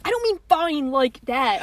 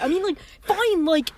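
First: Put-on drawn-out, slow boyfriend protest; mock rom-com boyfriend, stretching "fine". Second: Higher mock boyfriend, lifting "fine"; earnest boyfriend clarifying, pitched up on "fine"; rom-com boyfriend. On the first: Friend mocking how co-host explained "fine", rom-com boyfriend voice. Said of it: "You sound like a Not Like Other Girls rom-com boyfriend". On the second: Friend mocking co-host's clarification, higher rom-com boyfriend voice. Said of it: "rom-com boyfriend who's like".

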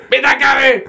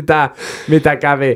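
First: High imitated shout of mitä kävi; mock shout. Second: Said in the usual way. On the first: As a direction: pitch it very high like a startled cameraman. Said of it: "hän huutaa". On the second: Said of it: "tää kommentti".

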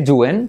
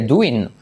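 First: "doing" said as "DU-en"; drawn-out "du-en" for "doing"; doing like duende. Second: "doing" said as "DU-in"; careful "du-in" for "doing"; doing with clear I. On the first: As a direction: give "doing" an E in the last syllable. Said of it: "decir doing como duende". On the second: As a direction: give "doing" an EE sound in the last syllable. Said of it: "que doing". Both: Shown as a demonstration.

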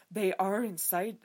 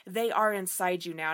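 First: Slow, stuffy mock British accent; lightly done British accent. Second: Said in the usual way. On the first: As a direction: say "They are inside" slowly, like a stuffy proper British dude. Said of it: "a proper British dude talking". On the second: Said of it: "and he's like".

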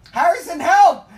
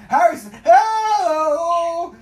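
First: Mock call for help. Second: Slow, high, loud wailing cry for help; mock crying wail. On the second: Begging Harrison for help, drawn-out mock wail. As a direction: stretch it out like a sobbing plea.

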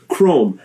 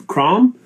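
First: CHROME with a long "oh", falling. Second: CROM with an open "ah" vowel, rising; short open vowel. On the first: Host offers chat the other option, long-O pronunciation. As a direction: say Chrome to rhyme with "home". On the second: Host offers chat one option, asking pronunciation. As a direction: say Crom to rhyme with "Tom", questioning. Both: Shown as a demonstration. Weighing two pronunciations aloud.

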